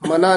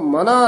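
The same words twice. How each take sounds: First: The word is said lightly, without weight. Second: The word is said heavily, with weight. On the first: It means to forbid or stop someone. The speaker calls it wrong. "ਮਨਾ ਨੀ ਬੋਲਣਾ" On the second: It addresses the mind. The speaker calls it right. "ਥੋੜਾ ਜਾ ਭਾਰਾ ਬੋਲਣਾ"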